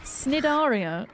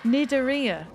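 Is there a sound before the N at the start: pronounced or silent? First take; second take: pronounced; silent. First: The word starts with a sound before the N. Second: The word starts directly with the N sound. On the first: The speaker calls it wrong. "That's how it's spelt, but I don't know how to pronounce it" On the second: The speaker calls it right. "so you don't say the C at all. It's silent"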